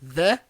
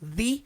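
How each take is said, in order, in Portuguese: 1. A palavra termina com a vogal curta 'uh'. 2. A palavra termina com a vogal longa 'ee'. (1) "porque a próxima palavra aqui na linha de baixo começa com consoante M" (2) "e não"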